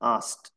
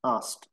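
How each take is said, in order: First: The vowel sounds like ow. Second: The vowel sounds like ow.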